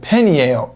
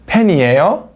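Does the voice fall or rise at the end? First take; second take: falls; rises. First: The voice falls at the end. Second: The voice rises at the end.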